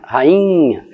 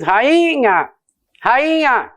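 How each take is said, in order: First: Rainha with the I nasalised into nh; natural nasal reading. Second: Rainha with a high, exaggerated pure I; wrong, un-nasalised reading. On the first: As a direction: rainha as usually said, nasal drawn-out I. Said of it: "ninguém fala assim". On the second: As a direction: overdo a clean, ringing I in rainha, as nobody says it. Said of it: "Não, ninguém diz". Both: Shown as a demonstration.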